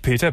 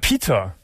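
First: The name is pronounced the usual German way. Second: The name is pronounced the Dutch way, Pieter. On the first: The speaker calls it wrong. "nicht Peter" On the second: The speaker calls it right. "holländischer Name"

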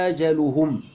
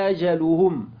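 No difference in how they are said.

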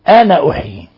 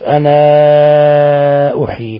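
First: The final vowel of ana is kept short. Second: The final vowel of ana is held long. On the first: This is the reading of another school of reciters. "وإذا وصلها يقول أنا أحيي" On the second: This is the reading of one school of reciters. "يثبت الألف أنا أحيي"

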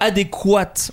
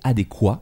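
First: The final T sound is pronounced. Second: The final T sound is silent. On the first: The speaker calls it wrong. "on ne dit pas le T" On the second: The speaker calls it right. "c'est adéquat"

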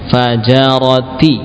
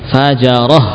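First: The word ends with a t sound and vowel. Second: The word ends with a final h sound. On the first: The word is read without stopping on it. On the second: The reader stops on this word.

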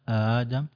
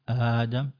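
Both takes have the same delivery.

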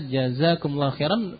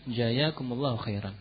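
First: The second consonant is a z sound. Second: The second consonant is a y sound. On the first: The speaker calls it right. "Jangan sampai membaca jazakumullahu khairan" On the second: The speaker calls it wrong. "menjadi jaya"

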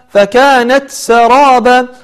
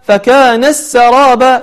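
First: A clear T is heard before the S. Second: The T merges into the S sound. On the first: The speaker calls it right. "تحاول أن تظهر التاء ولا تدغمها" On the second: The speaker calls it wrong. "فلا تقول"

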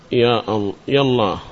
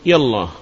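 First: A glottal stop separates ya from Allah. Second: Ya runs straight into Allah without a stop. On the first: "القطع" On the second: "والوصل"

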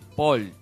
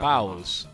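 First: The name ends without an s sound. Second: The name ends with an s sound. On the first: The speaker calls it wrong. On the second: The speaker calls it right. "Es Pauls"

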